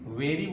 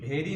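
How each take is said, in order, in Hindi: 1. इस शब्द की शुरुआत 'v' आवाज़ से होती है। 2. इस शब्द की शुरुआत सांस वाली 'b' आवाज़ से होती है। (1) "वेरी बोलेंगे, क्योंकि वी से व होता है" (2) "ये वेरी नहीं"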